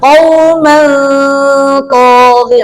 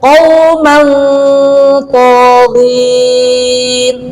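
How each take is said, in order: First: The nasal sound is thin and light. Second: The nasal sound is thick and heavy. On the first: The speaker calls it wrong. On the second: The speaker calls it right.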